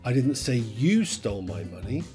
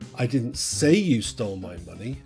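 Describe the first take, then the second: First: The word "you" is stressed. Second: The word "say" is stressed. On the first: Someone else stole it. "Someone else stole it" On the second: It was implied but never said aloud. "you did, I just didn't say it"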